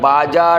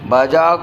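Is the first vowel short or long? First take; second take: long; short. First: The first vowel is drawn out long. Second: The first vowel is short. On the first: The speaker calls it wrong. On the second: The speaker calls it right.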